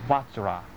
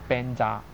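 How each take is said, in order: First: The word is said as "vajra". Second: The word is said as "benja". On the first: "梵语的念法就是Vajra" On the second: "西藏就是Benja"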